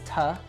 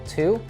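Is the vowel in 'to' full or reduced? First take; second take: reduced; full. First: The word has a weak schwa vowel. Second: The word has a full 'oo' vowel. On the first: "We reduce it to a schwa sound" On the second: "a full to"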